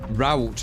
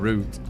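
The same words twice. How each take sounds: First: It is said the American way. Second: It is said the British way.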